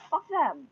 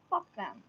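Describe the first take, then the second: First: Fuck them spat out higher and louder; angry curse. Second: Said in the usual way. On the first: Real, not acted. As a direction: bite out Fuck them with heat.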